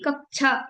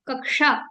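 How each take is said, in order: First: The middle cluster is sounded as chh. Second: The middle cluster is sounded as k plus sh. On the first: The speaker calls it wrong. "ना कि कक्षा" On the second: The speaker calls it right. "कक plus शा, ऐसा अगर आप लिख देंगे तो हो जाएगा कक्षा"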